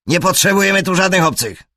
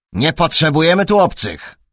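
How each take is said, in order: First: "potrzebujemy" shouted high and fast; furious yell. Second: A louder, higher footman turning strangers away; gruff footman. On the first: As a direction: spit it out, much louder and higher. Brown przegania Holmesa. (wściekły krzyk, "potrzebujemy" wykrzyczane wysoko) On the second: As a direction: bark it like a servant guarding the gate. Lokaj przegania obcych. (lokaj ostro przegania obcych, głośniej) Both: A narrator's reading.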